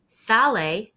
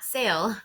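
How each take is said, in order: First: It is said with Spanish vowels, two syllables. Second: It is said like the English word, one syllable. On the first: The speaker calls it right. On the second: The speaker calls it wrong.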